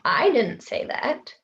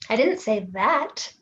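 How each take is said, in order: First: The stress falls on the word I. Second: The stress falls on the word say. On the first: Someone else said it. "but maybe someone else did" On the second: Something else was said instead. "but I did say something else"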